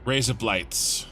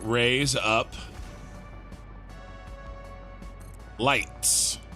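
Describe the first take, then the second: First: It is said quickly, run together. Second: It is said slowly and separately.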